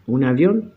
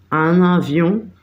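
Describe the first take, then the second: First: Said in the usual way. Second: "Un avión" said slowly in French, with nasal vowels and liaison; French pronunciation. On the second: Shown as a demonstration. French word set against Spanish translation. ("Un avión" pronunciado en francés, lento, con liaison)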